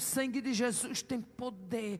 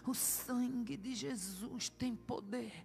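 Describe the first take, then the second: First: It is said with growing strength and force. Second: It is said slowly and weakly, like a groan.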